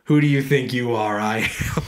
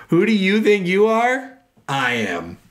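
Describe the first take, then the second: First: Said in the usual way. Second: Shouted high and slow at first, dropping on I am; hammed-up bowler yelling down the crowd; mock yell. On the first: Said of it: "he's yelling at the crowd". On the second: Retelling a bowler's yell at the crowd, hammed-up shout.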